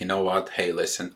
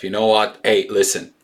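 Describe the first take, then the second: First: It is said in a calm, gentle tone. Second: It is said in an angry, harsh tone. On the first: The speaker asks for things to settle down. The speaker calls it right. "whisper to the souls" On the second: The speaker does not care and demands action. The speaker calls it wrong. "don't scream at egos"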